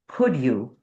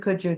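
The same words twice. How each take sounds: First: The final d is clearly pronounced before you. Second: The d blends into you, sounding like 'couldja'. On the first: The speaker sounds more articulate. "we want to get to the end of the word" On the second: This is ordinary casual speech. "In normal speech, if you're speaking fast"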